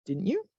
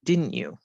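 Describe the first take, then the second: First: DIDN'T YOU rising in pitch, softer; rising question tag. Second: DIDN'T YOU going down in pitch; falling tag. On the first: Teacher corrects it as requiring an answer, rising question tag. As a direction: lift "didn't you" up at the end. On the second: Teacher's first try before correcting herself, falling tag. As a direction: let "didn't you" fall at the end. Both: Shown as a demonstration. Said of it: "My voice actually should go up".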